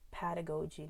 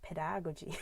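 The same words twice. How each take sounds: First: Pedagogy said quietly as PED-a-GO-gy; pedagogy, soft, with a full long GO; stress on GO. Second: Pedagogy as pe-DAG-o-gy, stress on DAG; pedagogy, soft, with short stressed DAG; misplaced stress. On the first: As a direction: keep the weight on GO in pedagogy. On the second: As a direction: wrongly stress the second syllable of pedagogy. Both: Shown as a demonstration. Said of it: "not pedagogy".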